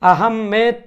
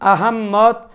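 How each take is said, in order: First: The name ends with a 'med' sound. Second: The name has a doubled 'mm' with an extra syllable. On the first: "আহমেদ ... উচ্চারণ করার কোনো সুযোগ নেই" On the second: "আহম্মদ বা আহম্মদ উচ্চারণ করার কোনো সুযোগ নেই"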